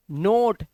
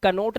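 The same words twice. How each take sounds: First: "नोट" starting straight on N; one-syllable "नोट", no K at all; silent K. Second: "कनोट" with the K sounded; wrong reading of knot. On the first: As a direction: drop the K and say "नोट". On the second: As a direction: say "कनोट", a K syllable before "नोट". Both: Shown as a demonstration. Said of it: "कनोट नहीं पढ़ना है".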